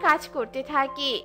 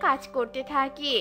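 The two takes are said the same way.

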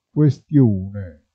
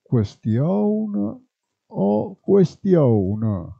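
First: Said in the usual way. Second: "Questione" said as kwestioun, with a rising end; "questione" in dialect: kwe-stioun, an ou in the last syllable; "Questione o questione", kwestioun then kuestiouna; dialect pronunciation. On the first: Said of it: "si può trasformare in W". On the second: Shown as a demonstration. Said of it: "quando la U non è bene scandita".

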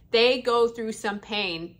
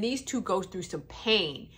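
First: "They go through some pain" drawn out slowly and weightily; emphatic repeat. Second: Said in the usual way. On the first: Real, not acted. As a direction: stretch "pain" and lean on each word.

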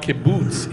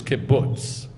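First: "kibbutz" rhyming with boots; wrong long oo. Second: "kibbutz" with the short u of book; vowel as in book. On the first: Teacher showing what it's not, "kibbutz" with long oo. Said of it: "it's not kibbutz, it's kibbutz". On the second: Teacher correcting the vowel, "kibbutz" rhymed with puts. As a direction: say "kibbutz" with a short, relaxed oo as in put. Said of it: "Like book". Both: Shown as a demonstration.

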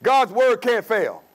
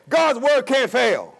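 The two takes are said the same way.

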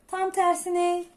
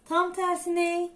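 Both takes have the same delivery.

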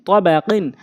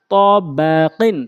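First: Short vowels, syllables run together; quick reading. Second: Drawn-out syllable by syllable reading; slow demo. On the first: Teacher showing how it must be read, quickly. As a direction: read it briskly as one word. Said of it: "দ্রুতটা উচ্চারণ করতে হবে". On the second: Teacher showing learners the word first, slowly. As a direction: stretch each syllable for learners. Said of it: "প্রথমে আমি slow বলছি". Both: Shown as a demonstration.

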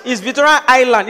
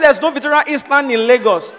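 First: "Island" said as "eye-land"; silent S. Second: "Island" said as "iss-land"; sounded S. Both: Retold or imitated. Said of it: "The S is silent".

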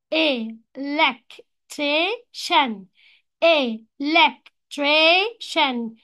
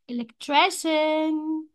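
First: "electrician" broken very slowly as e... lec... tri... cian; split into syllables. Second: Said in the usual way. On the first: Shown as a demonstration. Teacher shows four syllables, "electrician" split in four. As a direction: say "electrician" one syllable at a time, gaps between. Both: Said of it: "four syllables".

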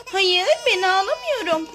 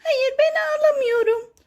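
First: Lightly voiced doll, near the speaker's own pitch; doll's denial, pitch falling at the end; Lol bebek. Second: Lightly voiced toy, pitched up; Zeynoş. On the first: Doll answering whether it is the one crying, lightly voiced. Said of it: "Lol bebek, sen mi ağlıyorsun yoksa?". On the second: Toy answering whether it is the one crying, lightly voiced higher. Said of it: "Aa, Zeynoş, sen mi ağlıyorsun yoksa?".

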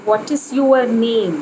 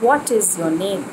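First: "your" said as two beats, "you-er", in What is your name; wrong your. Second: "your" said short as "yor", one syllable; right your. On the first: Teacher showing the wrong way, "your" as you-er. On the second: Teacher modelling the right way, short "your" as yor. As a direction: clip "your" to a single yor sound. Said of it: "The right way is". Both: Shown as a demonstration.

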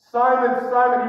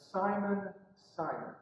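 First: Loud, raised "Simon, Simon"; urgent, forceful call by name; emphatic repeat. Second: Name said softly, dropping away; soft, falling "Simon, Simon"; gentle address. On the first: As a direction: drive the name home twice. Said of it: "he repeats it for emphasis". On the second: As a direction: call him quietly by name. Jesus calls Peter by name. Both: Retold or imitated.

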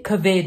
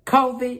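First: "covid" as kuh-VEED; name-style pronunciation. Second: "covid" as KOH-vid; usual pronunciation. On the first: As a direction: weaken the first vowel of "covid", stress the end. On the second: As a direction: stress the long O at the start of "covid". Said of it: "did you say covid?". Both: Acted.

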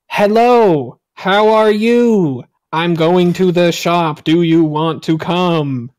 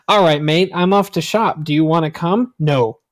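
First: Slow, louder robotic text-to-speech read; Microsoft Sam voice. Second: Said in the usual way. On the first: Shown as a demonstration. Demonstrating clear speech to foreigners in a slow, loud robot voice. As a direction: speak each word like an old computer voice, slow and loud. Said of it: "Just talk like Microsoft Sam". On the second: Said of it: "and I read that".

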